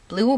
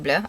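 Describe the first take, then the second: First: The word is said like English 'blue'. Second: The word is said with a French vowel. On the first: "I don't know how they pronounce it" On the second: "I think it's pronounced because it's French brand"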